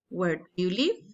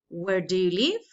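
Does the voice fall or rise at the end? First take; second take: fall; rise. First: The voice falls at the end. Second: The voice rises at the end.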